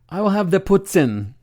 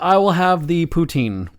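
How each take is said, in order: First: Poutine is said with a French accent. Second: Poutine is said in a plain English accent. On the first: Ordering while visiting Quebec. "saying the one word with an accent" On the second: Ordering at home in Winnipeg. "when I'm in a restaurant in Winnipeg"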